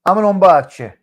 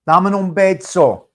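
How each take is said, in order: First: "bacio" said with a ch sound, "bah-cho"; Italian kiss phrase. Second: "bezzo" said with a ds sound, "bedso"; Spanish-style kiss phrase. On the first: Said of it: "In Italiano". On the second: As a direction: say "Dammi un bezzo" with "bezzo" as "bed-so". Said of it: "dammi un bezzo in Spanish". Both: Shown as a demonstration.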